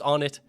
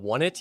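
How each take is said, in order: First: The first part sounds like the word on. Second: The first part sounds like the word one. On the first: The speaker calls it right. "even though I know it's On It" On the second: The speaker calls it wrong. "I'm gonna call it One It"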